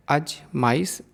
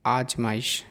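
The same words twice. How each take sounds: First: अजमाइश with a short first a; the mistaken अजमाइश; wrong form. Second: आजमाइश with a long first आ; the proper आजमाइश; correct form. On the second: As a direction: say आजमाइश, opening vowel long. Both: Shown as a demonstration. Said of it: "अशुद्ध और शुद्ध रूप".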